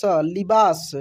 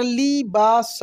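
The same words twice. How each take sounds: First: Said in the usual way. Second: लिबास broken into li, baa, sa; syllable by syllable. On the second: Shown as a demonstration. Teacher spelling for learners, लिबास syllable by syllable. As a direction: sound out each syllable of लिबास. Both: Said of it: "छोटी की मात्रा भी बोलकर".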